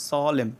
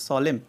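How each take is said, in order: Both takes have the same delivery.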